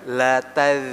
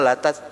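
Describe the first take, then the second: First: The final z sound is sustained and flowing. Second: The final sound is cut off, not flowing. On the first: The speaker calls it right. "Ini kalau dia za sukun ini dialirkan" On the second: The speaker calls it wrong. "Jangan latas, latas gitu"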